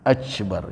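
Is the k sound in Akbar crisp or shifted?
shifted. The k sound shifts toward a ca-like sound.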